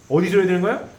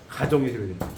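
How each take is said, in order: First: 어디서 이뤄야 되는 거야 asked with a louder rise on 이뤄야; a preacher's question to the congregation, pitched upward; rising question. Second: 가정에서 said lower, with a firm falling answer. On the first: (청중에게 묻듯 이뤄야에서 크게 올리는 질문) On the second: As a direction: answer his own question with a settled, lower 가정에서. (스스로 답하듯 가정에서를 낮게 내려 단정하는 대답) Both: Shown as a demonstration.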